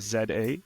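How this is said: The letters are said in a Canadian way.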